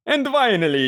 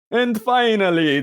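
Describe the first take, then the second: First: Higher strained Count announcing; Count voice again. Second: Higher hammy Count announcing; a hint of the Count. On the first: Acted. Host retrying the plug, straining in the Count voice. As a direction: push the Count through a sore throat. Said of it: "this is kind of hurting my throat". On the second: Host winding up the plug in a light Count voice. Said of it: "Count Dracula, Sesame Street style".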